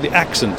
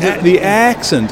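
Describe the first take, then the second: First: The vowels are kept short and clipped. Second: The vowels are drawn out long. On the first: "I would say the accent" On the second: "you say the accent"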